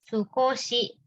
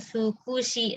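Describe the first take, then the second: First: The second vowel is an o sound. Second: The second vowel is a u sound. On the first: The speaker calls it right. "bacanya sukoshi" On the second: The speaker calls it wrong. "bukan sukushi"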